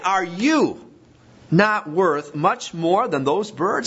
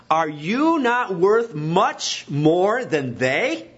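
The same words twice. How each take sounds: First: YOU and BIRDS stressed, slowish with a rising end; emphatic repeat. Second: YOU stressed, drawn out slowly with a rising end; slow emphatic question. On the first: Preacher repeats the point to listeners, emphatic. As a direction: repeat the question, pressing each word. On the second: Preacher presses the congregation, slow and emphatic. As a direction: lean on you and stretch the whole question slowly. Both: Shown as a demonstration. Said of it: "It's emphatic".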